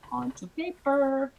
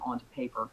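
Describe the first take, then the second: First: "Onto paper" said slowly and high, both words weighted; stress on onto paper. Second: Said in the usual way. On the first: Shown as a demonstration. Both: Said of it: "Onto paper, right there".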